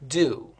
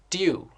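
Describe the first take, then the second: First: It is said in an American accent. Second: It is said in a British accent. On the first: "American pronunciation" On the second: "British pronunciation"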